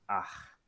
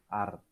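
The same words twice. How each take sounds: First: It is said with a Rio accent. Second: It is said with a São Paulo accent.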